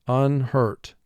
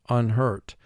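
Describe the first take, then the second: The two takes are said the same way.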